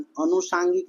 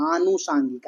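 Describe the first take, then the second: First: अनुषांगिक with a short a; short-a अनुषांगिक, marked wrong; wrong form named. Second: आनुषांगिक with a long first aa; long-aa आनुषांगिक, marked right; correct form shown. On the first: Teacher contrasts short-a अनुषांगिक for students. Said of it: "अनुषांगिक नहीं". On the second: Teacher models long-aa आनुषांगिक for students. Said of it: "आनुषांगिक होता है". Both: Shown as a demonstration.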